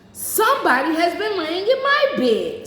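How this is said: The voice is medium, neither deep nor high. The middle-sized bear is speaking. "in her middle voice"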